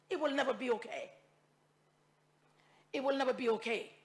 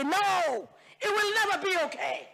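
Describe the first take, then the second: First: Quiet repetition. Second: High, pushed declaration; emphatic no. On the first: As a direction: let it sink in, softer. Repeats the line quietly. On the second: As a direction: fling it out with conviction. Impassioned denial in parliament. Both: Real, not acted.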